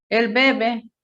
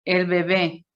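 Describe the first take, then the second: First: "bebé" said as BE-be; stress on first syllable. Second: "bebé" said as be-BÉ; stress on last syllable. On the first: Teacher contrasting the verb with the noun, stress on first syllable. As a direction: punch the first "be" of "bebé", drop the second. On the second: Teacher contrasting the noun with the verb, stress on last syllable. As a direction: land on the final "bé" of "bebé". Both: Shown as a demonstration. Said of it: "cuando decimos el bebé".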